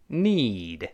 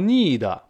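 First: It is said slowly with a long stretched vowel. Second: It sounds like the Chinese syllable ni. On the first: The speaker calls it right. "我们先慢慢读need" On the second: The speaker calls it wrong. "不要读need，不是那个你那个声音哦"

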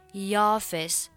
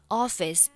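First: A 'y' glide is added before the vowel. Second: The word starts directly with its vowel.

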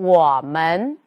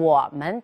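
First: The second syllable is full-toned and drawn out. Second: The second syllable is light, short and neutral-toned. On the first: The speaker calls it wrong. "首先没有做轻声处理，另外呢，把门呢拖长音了，这是不恰当的" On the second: The speaker calls it right. "它是一个必读轻声词"

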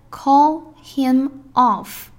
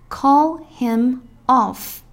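No difference in how they are said.

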